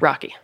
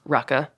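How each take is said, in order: First: The word ends with an 'ee' vowel, anglicized. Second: The word ends with a soft undotted-i vowel.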